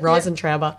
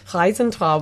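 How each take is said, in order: First: It is said with a broad Australian pronunciation. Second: It is said with an attempted German pronunciation.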